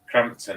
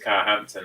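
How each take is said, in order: First: The name is squeezed into two short syllables. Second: The name is said in full, all syllables. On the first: This is how locals said it. "they said it's something like Crampton" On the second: This is how visitors said it. "we said it was Carhampton"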